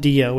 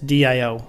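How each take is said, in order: First: It is said as a single word. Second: It is said as three separate letters. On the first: The speaker calls it wrong. "It's not Dio" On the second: The speaker calls it right. "it's DIO"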